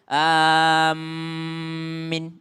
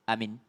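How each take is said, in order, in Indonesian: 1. M dibaca ganda dengan vokal akhir pendek. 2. Kedua vokal pendek dengan satu m. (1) "mentasydidkan mimnya lalu memendekkan ya-nya" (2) "dua-duanya pendek, hamzanya pendek, minnya juga pendek"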